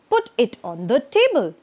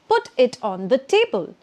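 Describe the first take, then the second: Both takes have the same delivery.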